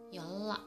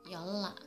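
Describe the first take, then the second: First: The middle consonants sound like a double l. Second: The same.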